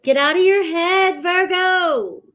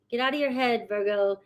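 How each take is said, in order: First: Loud and higher, firm push; emphatic command. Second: Softer, gentle echo; soft repeat. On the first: Reader loudly urges Virgo viewers to stop overthinking. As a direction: shake them out of it. Repeated advice, first take loud. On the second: Reader softly repeats her advice to Virgo viewers. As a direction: say it again quietly to let it sink in. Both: Acted.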